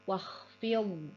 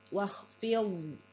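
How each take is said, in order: Both takes have the same delivery.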